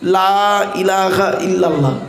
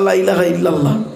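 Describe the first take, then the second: First: The phrase is said slowly, with each word drawn out. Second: The phrase is rushed, with the words clipped short. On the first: There is no god but God. The speaker calls it right. "এইভাবে পড়লাম কেন?" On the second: There is surely a god besides God. The speaker calls it wrong. "তাড়াহুড়ো করতে গিয়ে আমরা কি বলি"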